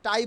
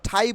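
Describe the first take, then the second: First: টাই with unaspirated ট; wrong-way example. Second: ঠাই with aspirated ঠ; corrected pronunciation. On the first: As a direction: puffless টাই. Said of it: "বলবো না". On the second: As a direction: puff into ঠাই. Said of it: "বলবো". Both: Shown as a demonstration.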